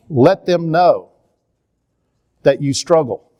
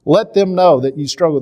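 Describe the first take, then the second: First: "Let them know" slow, with weight on "know"; slow emphatic. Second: "them" hit higher and louder; stress on them. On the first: Repeating his advice to parents, stressing "know" slowly. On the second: Urging parents, with the stress moved onto "them". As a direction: punch "them" in "Let them know that you struggle". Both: Shown as a demonstration.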